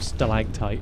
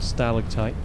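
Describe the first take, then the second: First: It is said in an American pronunciation. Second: It is said in a British pronunciation.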